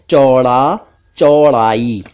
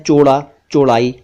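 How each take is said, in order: First: "चौड़ा, चौड़ाई" with drawn-out open au; correct au vowel. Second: "चौड़ा, चौड़ाई" mispronounced "choda, chodai", quickly; wrong o vowel. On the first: Shown as a demonstration. Teacher gives correct words, au sound. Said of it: "सही शब्द हैं". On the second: Retold or imitated. Teacher imitates some people's mistake, o sound. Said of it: "वो ठीक नहीं है".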